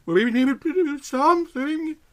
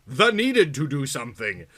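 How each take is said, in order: First: Much higher, urgent character voice; quoted line. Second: Said in the usual way. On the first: Acted. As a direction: say it as the worried friend. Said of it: "Yvonne's line, spoken high". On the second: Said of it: "narration repeats the line".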